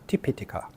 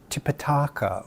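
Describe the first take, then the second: First: The vowel is said short. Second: A vowel is said long. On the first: The speaker calls it right. "The correct pronunciation would be Tipitaka" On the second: The speaker calls it wrong. "mistaking a short vowel for a long vowel"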